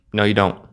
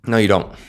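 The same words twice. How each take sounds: First: YOU carries the weight, "don't" falls away; stress on YOU. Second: NO hit hardest, falling at the end; stress on NO. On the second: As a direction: punch "No" and let "you don't" drop. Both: Shown as a demonstration.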